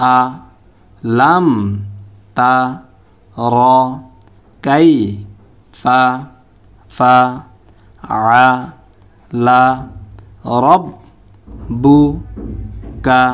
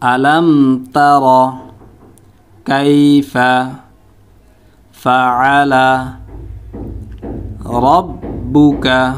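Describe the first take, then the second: First: Every syllable is said separately with breaks. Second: Each whole word is said with breaks between. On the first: "এখন আমরা ভাঙ্গা ভাঙ্গা উচ্চারণ করব।" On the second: "এখন উচ্চারণ করব শব্দ শব্দ।"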